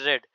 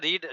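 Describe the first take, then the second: First: The vowel is short, like in 'red'. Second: The vowel is long, like in 'reed'. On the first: It is the past tense form. "लेकिन पढ़ा जाएगा रीड रेड रेड" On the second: It is the present tense form. "लेकिन पढ़ा जाएगा रीड रेड रेड"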